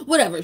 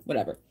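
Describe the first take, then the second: First: High and loud, breezy brush-off; sing-song shrug; playful whatever. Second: Dismissive. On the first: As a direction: toss it away. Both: Real, not acted.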